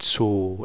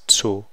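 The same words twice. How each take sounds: First: The vowel is lax and short. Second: The vowel is tense and rounded. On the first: The speaker calls it wrong. "So this isn't zu" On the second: The speaker calls it right. "it's zu, that's called a tense vowel"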